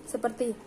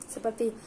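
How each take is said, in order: Both takes have the same delivery.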